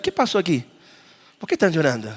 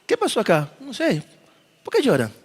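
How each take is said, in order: First: Soft, respectful puzzled question; hushed and respectful. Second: Soft, hushed wondering question; quiet and respectful. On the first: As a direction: ask gently, as a stranger at a funeral. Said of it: "Suena como respetuoso". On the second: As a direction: ask quietly with respect among mourners. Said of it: "Suena respetuoso". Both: Shown as a demonstration.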